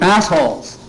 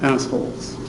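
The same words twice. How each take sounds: First: It is said in a screeching, exaggerated voice. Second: It is said in a plain, calm voice.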